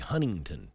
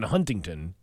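First: The middle T sound is dropped. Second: The middle T sound is pronounced.

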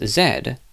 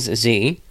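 First: The letter is said the British way. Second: The letter is said the American way. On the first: "other places such as the U.K. pronounce it as Z" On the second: "Most people from the U.S., I learned, pronounce it as Z"

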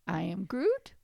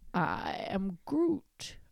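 First: The voice rises at the end like a question. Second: The voice falls at the end like a statement.

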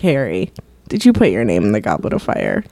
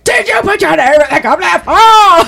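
First: The question is asked calmly. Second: The question is asked angrily.

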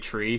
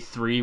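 First: The word begins with a hard 't' sound. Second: The word begins with a soft 'th' sound. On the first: This is how the Irish say it. "I'm Irish and we don't say three, we say tree" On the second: This is how others say it, not the Irish way. "we don't say three"

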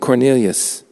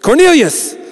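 First: The name is said calmly and quietly. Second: The name is shouted loudly. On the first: The speaker calls it wrong. "Actually, didn't say it like that" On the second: The speaker calls it right. "this angel shows up and shouts his name"

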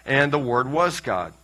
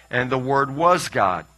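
No difference in how they are said.

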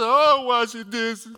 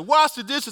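First: It is said with a grudging, sulky attitude. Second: It is said as a plain command.

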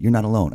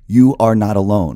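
First: It uses the contraction "you're". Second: It says "you are" as two full words. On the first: It sounds natural when comforting someone. The speaker calls it right. "I would say" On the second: It sounds less natural in conversation. The speaker calls it wrong. "I wouldn't say"

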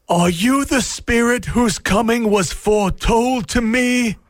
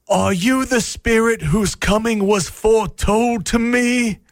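The two takes are said the same way.

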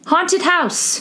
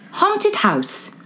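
First: It is said in the speaker's normal accent. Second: It is said in a put-on British accent.

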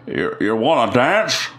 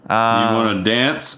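First: Spoken in a shaky, put-on old voice. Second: Spoken in a plain, natural voice. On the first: "Let me get my shakes going" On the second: "Let me know if you need the voice"

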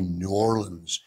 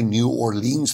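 First: It is pronounced the way locals say it. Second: It is pronounced the way outsiders say it. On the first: This is how locals say the name. The speaker calls it right. "they say New Orleans" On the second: This is not how locals say the name. The speaker calls it wrong. "They don't say New Orleans"

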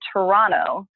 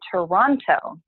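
First: The last T sound is dropped. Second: The last T sound is clearly pronounced. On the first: The speaker lives there. "you sort of drop that last T" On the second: The speaker is just visiting. "If you're visiting"

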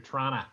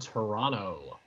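First: It is said the way locals say it. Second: It is said in a standard, outsider way.

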